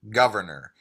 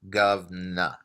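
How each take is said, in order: First: The R sounds are clearly pronounced. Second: The R sounds are dropped and syllables contracted. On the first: "I have a rhotic accent. So I would say the word governor" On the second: "Cockney, they might say govna... there is no R"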